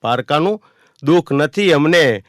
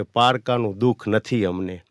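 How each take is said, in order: First: "પારકાનું" lifted, "નથી" slow and loud; emphatic repeat. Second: Said in the usual way. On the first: Shown as a demonstration. Poet repeating the line to the audience, louder with stress on "નથી". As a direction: lean hard on "નથી", slowing it down. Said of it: "poem line repeated stronger". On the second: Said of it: "poem line, then repeated stronger".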